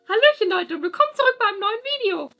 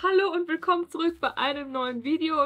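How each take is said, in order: First: It is said in a Mickey Mouse voice. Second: It is said in her normal voice.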